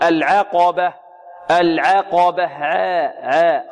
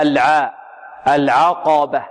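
First: "العقبة" with the a after ayn tilted toward "e"; over-thinned ayn. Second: "العقبة" with a clear open "a" after ayn; light ayn, untilted. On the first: Teacher shows a common error, "العقبة" with fronted ayn vowel. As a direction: tilt "العقبة" to al-'eh-qaba. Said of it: "فيميل فتحة العين، يقللها". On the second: Teacher corrects the tilt, "العقبة" with plain open ayn. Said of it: "خطأ، لا". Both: Shown as a demonstration.

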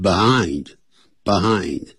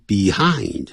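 First: "behind" with a reduced first syllable, buh-HIND; relaxed "buh" opening on "behind"; native-speaker "behind". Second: "behind" carefully said as bee-HIND; full vowel at the start of "behind"; textbook pronunciation of "behind". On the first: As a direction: say "behind" easily, first vowel weakened to a schwa. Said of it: "可是老外会念behind". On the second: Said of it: "本来这个字要念成behind". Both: Shown as a demonstration.

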